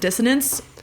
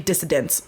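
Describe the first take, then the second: First: It is said without an extra D sound. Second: It is said with an extra D sound. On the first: The speaker calls it right. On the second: The speaker calls it wrong.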